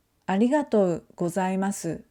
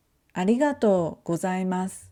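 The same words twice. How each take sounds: First: "ありがとうございます" with the final su voiced; the careful version with every vowel; full final su. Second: "ありがとうございます" ending in a bare s; voiceless final u. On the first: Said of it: "instead of saying". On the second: Teacher showing students the natural ending, u voiceless. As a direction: let the last u fall away. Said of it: "we say". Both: Shown as a demonstration.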